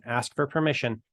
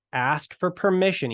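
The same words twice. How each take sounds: First: Said in the usual way. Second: "ask for permission" raised higher and louder; "permission" punched as the key rule; stressed instruction. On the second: Shown as a demonstration. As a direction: hit "permission" hard, higher up.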